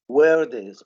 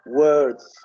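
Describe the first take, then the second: First: The final sound is voiced as an extra syllable. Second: The final sound is joined tightly to the d. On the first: The speaker calls it wrong. "We don't say words, words, or bags. ... make it very clear as if it is another syllable" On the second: The speaker calls it right. "just let the Z sound with the D sound very, very uh, connected together"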